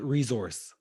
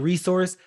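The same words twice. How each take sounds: First: The middle consonant is a Z sound. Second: The middle consonant is an S sound. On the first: This is how Canadians say it. "They say resource. So it- it's like a Z sound" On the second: This is how Americans say it. "We say resource"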